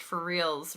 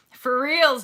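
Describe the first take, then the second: First: Said in the usual way. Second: For reals, higher and louder, punched; really mean it this time; emphatic for reals. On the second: Acted. Stressing the point to her viewers, loud and emphatic.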